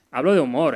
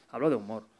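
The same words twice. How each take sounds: First: Loud, punchy insistence; emphatic. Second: Said in the usual way. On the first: Real, not acted. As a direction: hit it hard to make the point. Insists on humour, not insults.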